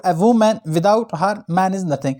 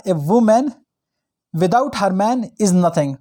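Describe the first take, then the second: First: "a woman, without her, man is nothing" with HER split from MAN; pause after HER. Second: "a woman", long pause, then "without her man is nothing"; pause after WOMAN. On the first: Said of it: "के बाद कामा लगाया". ("her" के बाद रुककर "man is nothing") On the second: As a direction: keep "her man" together after a clear break on "woman". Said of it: "उन्होंने कहा". ("woman" के बाद लंबा विराम, "her man" साथ में) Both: Shown as a demonstration.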